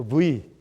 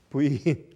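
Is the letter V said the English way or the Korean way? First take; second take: Korean; Korean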